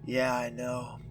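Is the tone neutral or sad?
sad. It is said in a sad tone.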